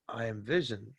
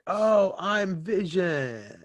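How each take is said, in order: First: It sounds like a quiet, awed revelation. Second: It sounds like an excited, happy celebration.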